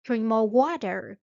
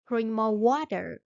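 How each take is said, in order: Both takes have the same delivery.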